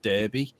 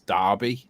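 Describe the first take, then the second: First: The word is said exactly as it's spelled. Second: The word is not said the way it's spelled. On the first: The speaker calls it wrong. "not Derby" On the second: The speaker calls it right. "We actually pronounce that with that town name as Derby"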